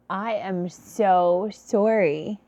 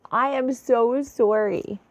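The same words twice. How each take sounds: First: Slow, drawn-out sorry with a lift at the end; slow heartfelt "I am so sorry"; sincere apology. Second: "I" pushed up and out, a little slow; "I am so sorry" with the weight on "I"; stress on I. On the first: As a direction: stretch out "sorry" and let it rise, deeply apologetic. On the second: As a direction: lean on "I" to take the blame. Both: Real, not acted.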